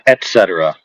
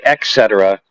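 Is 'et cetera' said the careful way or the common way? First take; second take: careful; common. First: The word is said the careful, standard way. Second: The word is said the common, everyday way. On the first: The speaker calls it right. "not et cetera" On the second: The speaker calls it wrong. "Most people say et cetera"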